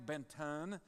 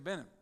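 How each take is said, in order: First: The middle t sound is clearly pronounced. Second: The middle t sound is dropped. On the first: The speaker calls it wrong. "you don't say Benton" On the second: The speaker calls it right. "you say Benin"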